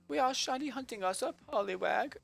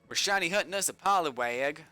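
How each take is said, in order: First: It is said in an attempted British accent. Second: It is said in the speaker's normal accent.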